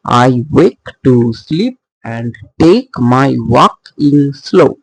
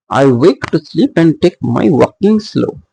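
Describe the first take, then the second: First: Slow scansion, "I wake" both stressed, then alternating beats; scanned metrical stresses. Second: Said in the usual way. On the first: Shown as a demonstration. Teacher scanning iambic pentameter, slow with marked stresses. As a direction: read it slowly beat by beat, landing on "slow". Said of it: "two stress syllable are next to each other".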